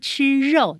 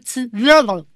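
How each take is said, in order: First: It is said with a plain Taiwanese Mandarin r. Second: It is said with a trilled Indonesian-style r.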